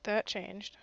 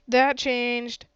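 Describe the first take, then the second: First: Said in the usual way. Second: Emphatic "That changed" with "That" stressed. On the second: Real, not acted. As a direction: hit the word "That" hard, pleased.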